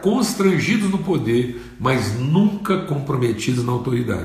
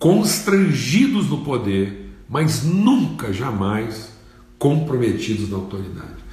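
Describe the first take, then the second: First: It is said at a normal pace. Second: It is said slowly and deliberately.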